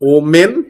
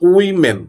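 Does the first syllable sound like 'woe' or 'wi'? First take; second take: woe; wi. First: The first syllable sounds like 'woe'. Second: The first syllable sounds like 'wi'. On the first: The speaker calls it wrong. "নো" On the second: The speaker calls it right. "This is উইমেন"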